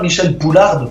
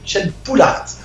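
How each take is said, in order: First: The surname ends with an audible d sound. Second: The surname ends without a d sound. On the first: The speaker calls it wrong. "C'est pas Michel Poularde, parce que la poularde, c'est un animal" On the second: The speaker calls it right. "C'est Michel Poulard"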